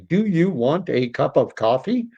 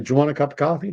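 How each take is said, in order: First: Each word is pronounced fully and separately. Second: The words are reduced and run together. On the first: The speaker calls it wrong. "That's not the way we talk" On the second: The speaker calls it right. "We say"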